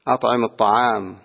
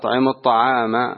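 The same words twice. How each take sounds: First: The last word ends on a silent consonant. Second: The last word ends with a short vowel. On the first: The speaker calls it right. "إنما تقرأ على الوقف عليها" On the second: The speaker calls it wrong. "هذه عند قراءتها لا تقرأ هكذا"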